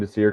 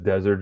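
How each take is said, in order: First: The name ends with an open 'deer' sound. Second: The name ends with a 'zert' sound. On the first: The speaker calls it right. "I'm saying Desir" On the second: The speaker calls it wrong. "Desert just sounds"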